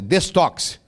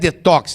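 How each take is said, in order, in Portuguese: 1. A palavra tem um som de S antes do T. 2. A palavra não tem som de S antes do T. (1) "O ideal seria" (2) "não é detox"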